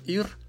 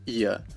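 First: The final r is a clear consonant. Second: The final r becomes a vowel sound. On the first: The speaker calls it wrong. "нас учили говорить просто" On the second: The speaker calls it right. "должны эти местоимения произноситься именно так"

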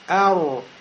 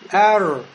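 First: Rounded lips give the r a u-like ending. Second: The r is soft with no added vowel. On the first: The speaker calls it wrong. "я губы сейчас пошевелил, сделал кольцо, у меня сукун стал похож на домму" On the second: The speaker calls it right. "ро, он произносится мягче, с сукуном, и при этом нельзя шевелить губами"

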